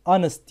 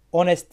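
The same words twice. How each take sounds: First: Honest said anıst, silent h; correct reading. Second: Honest with h and open o, onest; the spelled-out mistake to avoid; wrong reading. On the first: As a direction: model the dropped h. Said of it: "honest diye okunuyor". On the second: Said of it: "honest diye okunmuyor". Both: Shown as a demonstration.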